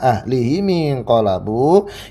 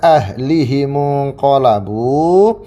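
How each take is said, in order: First: The vowel i follows h, i follows m. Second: The vowel i follows h, u follows m. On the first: "mimnya di kasrah" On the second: "seperti biasa kita baca"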